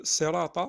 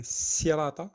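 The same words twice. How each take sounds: First: "sirata" with a dark, emphatic s; heavy sad. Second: "sirata" with a thin French s; light sin. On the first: Teacher modelling sad, heavy s in "sirata". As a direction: thicken the s of "sirata". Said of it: "mais un sad". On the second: Teacher showing the mistake, light s in "sirata". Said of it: "c'est pas un sin". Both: Shown as a demonstration.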